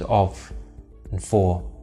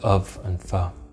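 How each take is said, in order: First: The words are said with full vowels. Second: The words are said with weak schwa vowels. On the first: "reducing those small grammar words, such as of and for" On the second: "to of and for"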